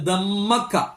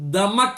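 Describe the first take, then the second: First: The m is held long and doubled. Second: The m is short and single. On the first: "ഷദ്ദ് കൊടുത്തു" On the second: "ഷദ്ദ് ഇല്ലാത്തടത്ത്"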